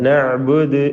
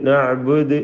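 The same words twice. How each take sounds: No difference in how they are said.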